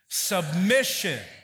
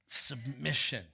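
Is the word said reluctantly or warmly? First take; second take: warmly; reluctantly. First: It is said warmly, as if welcome. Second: It is said reluctantly, as if unwelcome.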